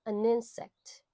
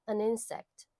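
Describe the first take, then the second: The two takes are said the same way.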